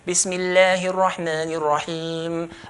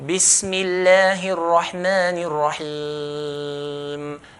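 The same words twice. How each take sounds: First: It is recited fast with short elongations. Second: It is recited at medium pace, moderately elongated. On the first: "If you're going to do hadar, do two" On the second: "If you're going to do tadwir, we do four"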